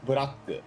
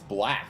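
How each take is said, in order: First: It is three syllables with added vowels. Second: It is one syllable with an English vowel.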